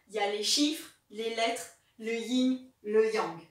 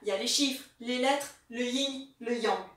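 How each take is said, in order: First: The phrase is said at a slower pace. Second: The phrase is said at a faster pace.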